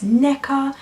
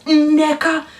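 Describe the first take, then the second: First: "Neka" said plainly, the way her family says it; family pronunciation. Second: "Nneka" slowed, higher and louder with a stressed nasal start; teacher's pronunciation. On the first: Explaining how her family says her name, plainly. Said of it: "my family always pronounce my name as Neka". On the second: Contrasting the teacher's version of her name, in an exaggerated way. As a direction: drag out "Nneka" the mispronounced way. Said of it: "not Nneka". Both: Shown as a demonstration.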